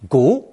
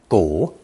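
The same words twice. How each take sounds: First: The syllable is said with a rising tone. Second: The syllable is said with a dipping tone. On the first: This is the colloquial word for plain bones. "but second tone" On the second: This is the usual pronunciation in most phrases. "This character is pronounced third tone"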